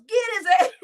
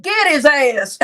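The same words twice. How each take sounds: First: Mocking yell of the quote; quick mocking shout of "Get his ass". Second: Put-on loud yell with a heavy country accent; hammed-up country holler of "Get his ass"; extra country. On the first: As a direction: yell it back, mocking the guy. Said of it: "Who the fuck yells". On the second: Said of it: "I put a little extra country on it".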